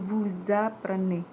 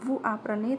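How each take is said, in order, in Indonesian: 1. Huruf s pada "vous" dibaca sebagai z. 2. Huruf s pada "vous" tidak dibaca, tidak ada penyambungan. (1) "tetapi menjadi vous apprenez" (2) "bukan vous apprenez"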